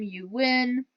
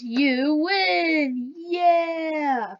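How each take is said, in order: First: Said in the usual way. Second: High, bright "You win! Yeah!" shout; excited victory cheer. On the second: Acted. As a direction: cheer it like you just won. Demoing the game's win message.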